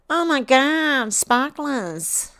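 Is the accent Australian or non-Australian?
Australian. It is spoken in an Australian accent. "I said that with an Australian accent"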